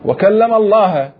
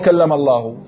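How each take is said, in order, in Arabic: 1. تنتهي كلمة Allah بالفتحة. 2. تنتهي كلمة Allah بالضمة. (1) "خلى لفظ الجلالة شنو؟ مفعول به" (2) "ها هي قراءتنا القراءة المعروفة"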